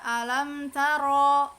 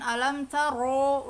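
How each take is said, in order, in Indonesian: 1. Bunyi ro itu tebal tanpa membulatkan bibir. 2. Bunyi ro itu tebal dengan bibir dimonyongkan. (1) "tebalnya bukan berarti dimonyongkan" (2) "bukan alam taro"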